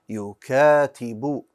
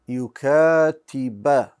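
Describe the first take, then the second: First: The word ends with a 'u' vowel. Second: The word ends with an 'a' vowel. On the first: The speaker calls it right. "It should have been a dhamma" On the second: The speaker calls it wrong. "I put a fatha on the ba"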